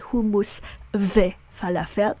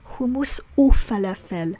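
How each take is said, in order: First: The word for 'and' is pronounced 've'. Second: The word for 'and' is pronounced 'oo'. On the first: The speaker calls it wrong. "We don't say hummus ve falafel. That's wrong" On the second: The speaker calls it right. "we pronounce the conjunctive vav as u"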